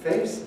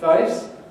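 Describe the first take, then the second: First: The vowel is the standard A-like diphthong. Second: The vowel is shifted toward an I-like diphthong. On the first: "the diphthong A" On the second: "moves one stage further to I"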